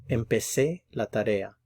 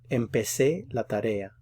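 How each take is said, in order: No difference in how they are said.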